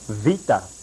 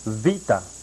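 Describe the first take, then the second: First: It is pronounced in a Greek style. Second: The same.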